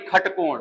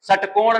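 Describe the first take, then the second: First: The word begins with a kh sound. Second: The word begins with an s sound. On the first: The speaker calls it right. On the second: The speaker calls it wrong. "षटकोण नहीं"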